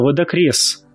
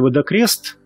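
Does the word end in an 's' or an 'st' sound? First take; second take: s; st. First: The word ends with an 's' sound. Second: The word ends with an 'st' sound. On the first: The speaker calls it right. "а «водокрес»" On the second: The speaker calls it wrong. "произносить слово не «водокрест»"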